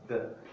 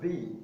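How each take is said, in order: First: It is said in its before-consonant form. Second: It is said in its before-vowel form. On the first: "if it comes before a consonant, pronounced the" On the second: "It is pronounced the if it comes before a vowel sound"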